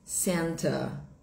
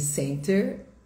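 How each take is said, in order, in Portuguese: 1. Termina em vogal, sem r. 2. Termina com um som de r bem claro. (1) "no inglês britânico, nós falamos" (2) "em inglês americano"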